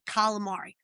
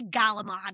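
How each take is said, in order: First: It starts with k and keeps the final vowel. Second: It starts with g and drops the final vowel. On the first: This is the form the family uses. The speaker calls it right. "we say calamari" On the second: This is the dialect form the family rejected. The speaker calls it wrong. "we don't say Galamad"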